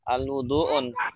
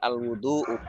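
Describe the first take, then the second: First: The word ends with an added n sound. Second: The word ends on a plain u vowel. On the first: The speaker calls it wrong. "kenapa tidak un al-wudu'un? Karena ada al" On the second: The speaker calls it right. "Jadi al-wudu'u ya"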